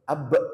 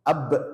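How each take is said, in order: Both takes have the same delivery.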